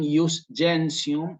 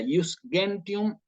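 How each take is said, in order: First: It is said in ecclesiastical, Italian-style pronunciation. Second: It is said in classical Latin pronunciation. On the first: "si lo digo en eclesiástico" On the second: "en todo caso"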